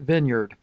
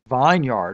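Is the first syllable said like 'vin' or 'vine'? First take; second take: vin; vine. First: The first syllable is short, like 'vin'. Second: The first syllable sounds like 'vine', then 'yard'. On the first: This is how people usually say it. "but they pronounce it vineyard" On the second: This follows the spelling as a yard of vines. "It's a yard of vines... It should be vineyard"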